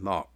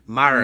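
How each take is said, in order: First: It is said in a British accent. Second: It is said in an American accent.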